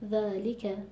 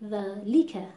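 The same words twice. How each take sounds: First: The l syllable is said evenly and naturally. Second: The l syllable gets heavy, forceful stress. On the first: The speaker calls it right. "خیلی طبیعی" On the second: The speaker calls it wrong. "داریم فشار زیادی و نبر زیاد میاریم رو حرف لام"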